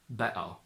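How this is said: The middle T becomes a glottal catch.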